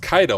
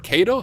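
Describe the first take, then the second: First: The first syllable sounds like 'kye'. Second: The first syllable sounds like 'kay'. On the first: The speaker calls it right. "it's actually pronounced Kaido" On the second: The speaker calls it wrong. "I've been saying it wrong this entire time"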